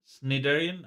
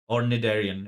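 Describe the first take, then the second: First: The word begins with an S sound. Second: The word begins with an N sound.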